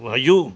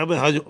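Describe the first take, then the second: First: והיו rising onto a stressed last syllable; והיו with end stress; correct stress, milra. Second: והיו stressed before the last syllable; והיו with penultimate stress; wrong stress. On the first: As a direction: land firmly on the end of והיו. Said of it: "میلئل، میرا". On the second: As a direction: shift the weight of והיו forward to the middle. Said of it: "נא". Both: Shown as a demonstration.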